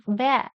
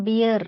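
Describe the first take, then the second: First: "bear" as beh, silent r; correct pronunciation. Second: "beer" as bee-er for bear; mistaken pronunciation. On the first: Teacher corrects the word for students, "bear" as beh. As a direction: say "bear" with open e, no r. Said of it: "It is bear". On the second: Teacher shows students what to avoid, "beer" with ee vowel. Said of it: "It is not beer". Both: Shown as a demonstration.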